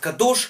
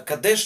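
First: The last vowel is an 'o' sound. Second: The last vowel is an 'e' sound. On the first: "Кто-то говорит Кадош" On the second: "кто-то Кадеш, я говорю Кадеш"

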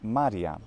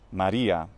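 First: It is pronounced the way the Latin plural is. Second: It is pronounced the way the personal name is. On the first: It means more than one lunar sea. The speaker calls it right. "the plural is Maria" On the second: It refers to a person's name. The speaker calls it wrong. "not Maria. That's, of course, a name"

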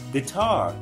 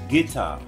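First: The word has the standard stress placement. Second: The word has the Southern stress placement.

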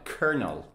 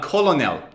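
First: The word is said as two syllables, ker-nel, with no L sound. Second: The word is said as three syllables, col-o-nel, with an L sound. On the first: The speaker calls it right. "The L-O in the middle is silent" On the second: The speaker calls it wrong. "Not colonel"

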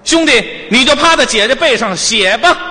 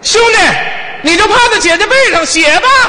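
First: It is said at a lower pitch. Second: It is said at a higher pitch.

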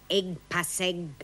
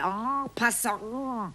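First: The nasal vowels are said as German 'eng' sounds. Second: The nasal vowels are said as French nasals. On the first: The speaker calls it wrong. "was soll denn das sein, Engpasseng?" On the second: The speaker calls it right. "Du meinst wohl en passant. Wer Fremdworte benutzt, sollte sie auch richtig aussprechen"

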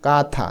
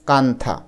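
First: The vowel is nasalized with no separate n. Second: A separate n sound is pronounced before tha. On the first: The speaker calls it right. "উচ্চারণটা হবে কে এ কা THA, থা, কাঁথা" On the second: The speaker calls it wrong. "Not কান্থা"

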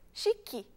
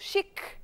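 First: The word ends with an added vowel sound. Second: The word ends in a consonant with no vowel. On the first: This is the adapted Portuguese pronunciation. "a gente vai e coloca chique" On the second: This is the original foreign pronunciation. "com esse C mudo, chic, em língua inglesa"

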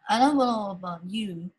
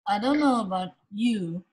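First: It is said with a smiling, bright voice. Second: It is said with a plain, unsmiling voice.

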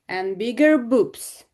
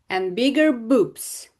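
The two takes are said the same way.

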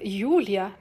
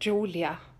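First: The name is said with a Dutch pronunciation. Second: The name is said with an English pronunciation. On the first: The speaker calls it right. "I am Julia" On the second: The speaker calls it wrong. "not Julia"

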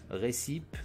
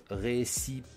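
Both takes have the same delivery.

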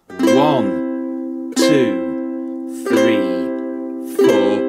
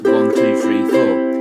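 First: The counting is very slow. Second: The counting is very fast.

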